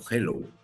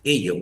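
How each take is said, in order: First: It is said with English pronunciation and an h. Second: It is said with Spanish pronunciation, no h. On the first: A synthesizer that knows the language reads it correctly. The speaker calls it right. "lo va a reconocer y lo va a leer como hello" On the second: A Spanish synthesizer reads the spelling literally. The speaker calls it wrong. "va a decir en realidad ello, porque lo va a leer textualmente"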